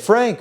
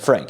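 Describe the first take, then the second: First: It is said energetically, with lively pitch movement. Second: It is said plainly, with little pitch movement. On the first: It is addressed to a dog. "If you're talking to your dog, you use tone, pitch, inflection" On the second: It is addressed to a person. "If you were talking to human Frank"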